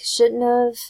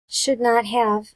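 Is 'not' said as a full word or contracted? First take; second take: contracted; full word. First: The words are contracted and run together. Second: Each word is said fully and separately.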